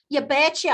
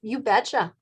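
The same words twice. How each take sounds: First: "You betcha" with a playful northern US accent, pitched up. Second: Said in the usual way. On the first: Shown as a demonstration. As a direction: lean into a folksy northern US twang on "betcha". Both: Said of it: "I'm gonna use my northern accent".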